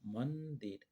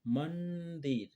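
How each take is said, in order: First: Said in the usual way. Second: मंदिर said slowly, each syllable stretched for the class; slow, drawn out word. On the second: Shown as a demonstration. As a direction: stretch मंदिर out slowly so children hear the न sound. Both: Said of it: "म के बाद न आ रहा है".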